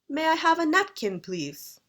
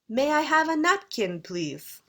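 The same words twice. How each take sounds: First: It is said with a British intonation. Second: It is said with a British intonation.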